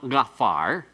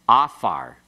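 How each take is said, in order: First: The word starts with a deep throaty consonant. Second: The word starts directly with a vowel. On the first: The speaker calls it wrong. "No, it's not gafar" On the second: The speaker calls it right. "doesn't have that deep guttural sound. The ayin is silent"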